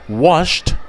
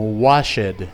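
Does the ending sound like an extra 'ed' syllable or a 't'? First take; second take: t sound; ed syllable. First: The ending is a single 't' sound. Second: The ending is a separate 'ed' syllable. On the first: The speaker calls it right. "debería ser como una T" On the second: The speaker calls it wrong. "tendemos a pronunciarlo en su forma de pasado como"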